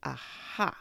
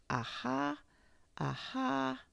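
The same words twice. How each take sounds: First: Said in the usual way. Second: Much higher, odd trial aha; trying the word out in a new high voice; practiced aha. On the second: Acted. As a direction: Pooh rehearsing a knowing aha, pitched up.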